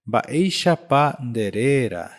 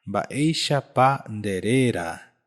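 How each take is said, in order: Both takes have the same delivery.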